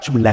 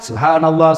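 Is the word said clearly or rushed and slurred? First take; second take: rushed; clear. First: It is said fast and slurred, barely intelligible. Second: It is said slowly with every syllable clear. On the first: The speaker calls it wrong. "seperti makan pisang goreng panas. Nggak jelas apa yang Bapak ucapkan" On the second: The speaker calls it right. "Perjelas, ucapkan dengan baik"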